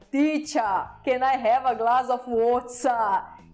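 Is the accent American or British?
British. It is said in a British accent. This is the corrected way. The speaker calls it right. "a minha professora me corrigia"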